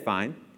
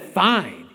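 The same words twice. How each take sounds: First: It is said in a plain, neutral tone. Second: It is said with a sassy, resentful tone.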